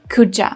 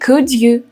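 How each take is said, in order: First: The word 'you' is reduced and linked on. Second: The word 'you' is said fully and separately.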